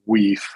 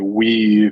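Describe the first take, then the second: First: The word ends in a voiceless consonant. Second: The word ends in a voiced consonant. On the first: The speaker calls it right. "it's actually" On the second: The speaker calls it wrong. "I would be tempted to say"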